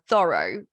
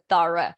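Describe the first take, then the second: First: The word is said with a non-native pronunciation. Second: The word is said with a British pronunciation. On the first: The speaker calls it wrong. "I used to pronounce this word as uh, thorough, but then they corrected me" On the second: The speaker calls it right. "it was a thorough. In American English, it's different"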